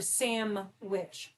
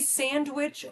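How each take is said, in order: First: The middle of the word sounds like 'sam'. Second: The middle of the word sounds like 'sand'. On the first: "Do you say sandwich or samwich?" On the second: "Do you say sandwich or samwich?"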